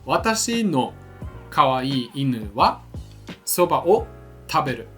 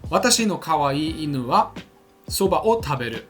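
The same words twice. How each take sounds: First: The sentence is said slowly. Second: The sentence is said fast.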